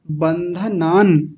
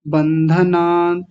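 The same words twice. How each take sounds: First: Slow बंधनान closing firmly on n; complete final न. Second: Slow बंधनान with the last n left off; dropped final न. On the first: Shown as a demonstration. Teacher asking for the whole word, slow बंधनान with final n. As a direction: finish बंधनान fully as ban-dha-naan. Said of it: "आप पूरा बोलिए". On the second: Retold or imitated. Teacher imitating recordings, बंधनान missing final n. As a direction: let बंधनान trail out on naa. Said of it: "न को ही छोड़ रखा है".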